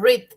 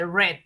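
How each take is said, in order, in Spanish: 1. Se pronuncia con la pronunciación del presente. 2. Se pronuncia con la pronunciación del pasado. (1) "en presente se dice read" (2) "en pasado se lee read"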